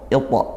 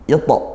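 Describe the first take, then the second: First: The first vowel is said thin and light. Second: The same.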